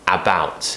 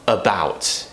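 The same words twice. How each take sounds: First: The first vowel is a full 'a' sound. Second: The first vowel is a weak 'uh' sound. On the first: The speaker calls it wrong. "instead of about" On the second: The speaker calls it right. "just like when we say about"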